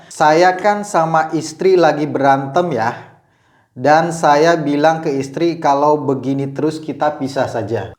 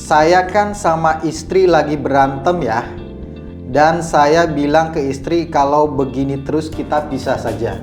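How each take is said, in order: The two takes are said the same way.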